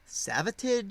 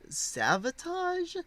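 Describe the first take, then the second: First: The ending rhymes with the word savage. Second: The ending rhymes with the word sabotage. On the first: "like Savage but with a vat in the middle" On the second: "like Sabotage but with a V"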